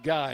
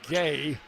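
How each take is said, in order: First: The name's vowel sounds like 'eye'. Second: The name's vowel sounds like 'ay'. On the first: The speaker calls it wrong. "instead of Guy" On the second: The speaker calls it right.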